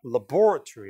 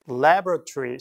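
First: Laboratory as "la-BOR-a-tree"; British laboratory, punch BOR; stress on second syllable. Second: Laboratory as "LAB-ra-tree"; American pronunciation. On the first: Teacher echoing the recording, laboratory stressed on BOR. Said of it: "이렇게 이음절로". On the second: Teacher echoing the recording, laboratory stressed on LAB. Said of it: "미국식". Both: Shown as a demonstration.

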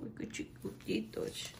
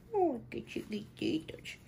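First: Whispered aww. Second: Delighted squeal. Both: Real, not acted. Cooing over tiny clothes.

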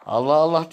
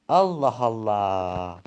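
First: Mocking echo of "Allah Allah", higher and rising. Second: Long drawn-out Allah Allah, slow and weary; "Allah Allah" stretched slowly, weary and fed up; exasperated sigh. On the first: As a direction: throw "Allah Allah" back with a higher, rising sneer. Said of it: "Allah Allah deyince". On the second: Acted. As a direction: drag out "Allah Allah" in tired disbelief.

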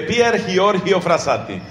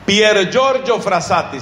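First: "Giorgio" read hee-OR-hee-oh, throaty h for each G; read as spelt. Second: "Giorgio" said JOR-jo within the full name, unhurried; Italian pronunciation. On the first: Preacher showing how it is written, "Giorgio" slowly as hee-OR-hee-oh. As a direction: say "Pier Giorgio Frassati" as written, Spanish letter sounds. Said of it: "se escribe Pier Giorgio Frassati". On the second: Preacher saying the saint's name properly, "Giorgio" as JOR-jo. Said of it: "se pronuncia Giorgio". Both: Shown as a demonstration.

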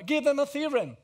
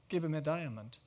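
First: High, loud delivery falling on THEOREM; emphatic punchline. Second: Low, soft delivery falling away on diamond; understated. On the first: Speaker urging lovers to give a theorem, emphatic. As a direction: lift it high and loud to top the diamond, landing on THEOREM. Triumphant punchline topping the diamond. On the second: Speaker offering the lesser gift to lovers, understated. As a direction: let DIAMOND drop, quieter and lower. Modest option set against the punchline. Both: Real, not acted.

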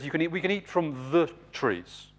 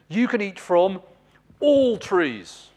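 First: "we can eat from the trees" said evenly with no stress on any word; toned-down repeat, nothing hammered; Eve's watered-down echo of God's words, no emphasis; volume turned down. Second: "You can eat from all trees" pitched higher, every word pressed hard; God's generous promise, emphatic on every word; emphatic on everything. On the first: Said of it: "Eve just kind of turns the volume down a bit". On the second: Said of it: "Emphatic on everything". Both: Retold or imitated.

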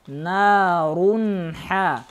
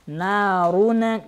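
First: Slow "Нарунха" with n passing straight into ха; measured chant, clean unreleased n in "Нарунха"; clear N. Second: "Нарун" with a stray vowel after final n; faulty bouncing n ending "Нарун"; released N. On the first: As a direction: join "Нарунха" with no vowel after н. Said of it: "Нарун. Не говорите". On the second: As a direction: wrongly let go of н, like "наруне". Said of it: "Не говорите". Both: Shown as a demonstration.

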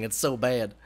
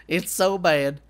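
First: Said in the usual way. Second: "so" pushed louder and higher; emphatic repeat. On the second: Real, not acted. Gamer groaning at own cracking voice, louder. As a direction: lean hard on "so" the second time. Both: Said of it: "my voice just keeps cracking".

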